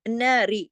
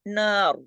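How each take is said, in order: First: The word ends on a light r with i. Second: The word ends on a heavy, full r. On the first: The reader continues without stopping. "तो फिर हम रा को बारीक करते" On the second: The reader stops on the word. "इस तरह रॉ को मोटा करके छोड़ना है"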